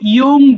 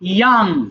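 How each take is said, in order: First: The vowel sounds like 'o', as in 'yong'. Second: The vowel sounds like 'a', as in 'yang'. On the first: The speaker calls it wrong. "আমরা ভুল করে ইয়ং বলি" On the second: The speaker calls it right. "But এটা হবে ইয়াং"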